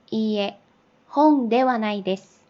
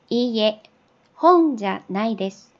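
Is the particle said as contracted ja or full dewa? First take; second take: full dewa; contracted ja. First: The particle is the full two-part dewa. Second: The particle is the short contracted ja. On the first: This is the standard full form. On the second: This is the casual conversational form.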